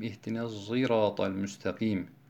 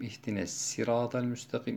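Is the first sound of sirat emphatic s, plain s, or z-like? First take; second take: z-like; plain s. First: Sirat begins with an s sound mixed with z. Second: Sirat begins with a light, plain s sound. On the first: "Sad harfinin zay harfi ile karışık şekilde" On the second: "İkinci okunuş sin şeklinde"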